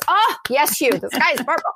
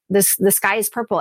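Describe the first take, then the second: First: Higher, gushing agreement with Hugh; mock adoring fan. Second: Said in the usual way. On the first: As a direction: gush like an audience hanging on every word. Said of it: "rapturous applause". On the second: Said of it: "He could say".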